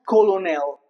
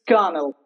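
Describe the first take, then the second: First: The two O vowels are pronounced. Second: The two O vowels are silent. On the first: The speaker calls it wrong. "It's not colonel. That's wrong" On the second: The speaker calls it right. "even the two O's are silent"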